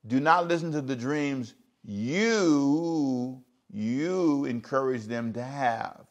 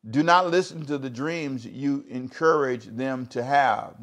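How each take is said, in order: First: Even slower, every word spaced out; slow emphatic repeat. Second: Slowed, leaning on not; stressed scripture reading. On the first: Preacher repeating the verse to the congregation, very slowly. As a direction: draw the verse out for them to notice. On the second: Preacher reading the verse to the congregation, slow and stressed. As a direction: read it with weight on not. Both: Shown as a demonstration.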